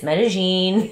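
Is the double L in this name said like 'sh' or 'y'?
sh. The double L sounds like sh. "if you say it with a Porteño accent, it's Medellin"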